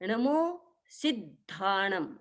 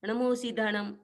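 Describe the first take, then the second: First: The syllable 'si' is pressed hard before 'ddha'. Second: The syllable 'si' is said lightly, without pressure. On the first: The speaker calls it right. "सी पर दबाव आएगा" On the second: The speaker calls it wrong. "ऐसे नहीं बोला जाता"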